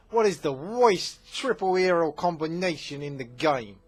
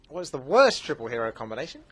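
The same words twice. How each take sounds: First: Loud, high, hammed-up New Jersey accent; exaggerated New Jersey accent, belted out. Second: Said in the usual way. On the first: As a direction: say "worst" as "woist", mock New Jersey style. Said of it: "I'm from New Jersey".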